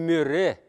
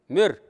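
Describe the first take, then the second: First: The word ends with an extra reduced vowel. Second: The word ends on the consonant, no vowel. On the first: The speaker calls it wrong. "Не мире" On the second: The speaker calls it right. "Там нету редуцированной гласной"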